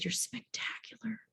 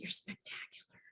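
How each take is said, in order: First: Husband's tender whisper, leaning close; hushed and intimate. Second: Tender retold whisper; soft hushed praise. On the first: Retold or imitated. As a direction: breathe it softly into her face. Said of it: "You're spectacular." whisper". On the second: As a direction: breathe it like a secret. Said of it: "I said".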